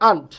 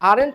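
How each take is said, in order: First: The word is said with one syllable. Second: The word is said with two syllables. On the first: The speaker calls it right. "এটা উচ্চারণ করবো আন্ট" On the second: The speaker calls it wrong. "আরেন্ট না"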